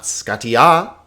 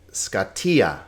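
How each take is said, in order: First: Scatia as ska-ti-A, rising loud at the end; wrong last-syllable stress. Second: Scatia as ska-TI-a, falling at the end; stress on TI. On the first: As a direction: punch the final "a" of scatia. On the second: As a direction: lean on the middle syllable of scatia. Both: Shown as a demonstration. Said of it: "pay attention to the accents".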